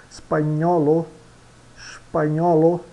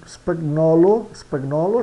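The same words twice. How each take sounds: First: SPAGNOLO with a NY sound, "spa-NYO-lo"; Italian pronunciation. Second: SPAGNOLO with a hard G, "spag-nolo"; read as spelt. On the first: Teacher models Italian, GN in spagnolo as NY. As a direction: melt the GN into NY in spagnolo. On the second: Teacher shows learners the written word, G sounded. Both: Shown as a demonstration.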